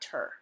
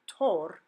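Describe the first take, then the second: First: "ter" as tur; English er sound in "ter"; English reduced vowel. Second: "tor" as tore, full O; full Spanish vowel in "tor". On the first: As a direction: say "ter" like the end of English doctor. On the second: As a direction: say "tor" with a clear O. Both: Shown as a demonstration. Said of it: "not ter".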